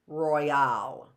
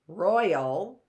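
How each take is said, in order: First: The stress is on the second syllable. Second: The stress is on the first syllable. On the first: The speaker calls it wrong. "or is the stress on the al" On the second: The speaker calls it right. "is the stress on the roy"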